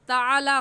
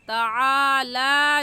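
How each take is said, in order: First: The vowels after ain and lam are short. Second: The vowels after ain and lam are lengthened. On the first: The speaker calls it wrong. "ताला गलत है" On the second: The speaker calls it right. "सही है ताला"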